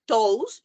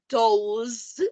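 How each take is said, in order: First: The word ends with a hissing s sound. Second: The word ends with a buzzing z sound. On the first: The speaker calls it wrong. "You don't say toes" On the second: The speaker calls it right. "you say toes, like a zit"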